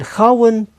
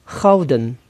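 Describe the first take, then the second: First: The middle d is replaced by a w sound. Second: The middle d is clearly pronounced. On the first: This is the informal variant. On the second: This is the formal variant.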